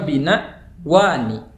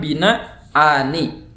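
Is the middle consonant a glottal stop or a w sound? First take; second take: w; glottal stop. First: A w sound separates the two long vowels. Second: A glottal stop separates the two long vowels. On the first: "boleh juga ditukar dengan waw" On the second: "Boleh ditetapkan hamzahnya"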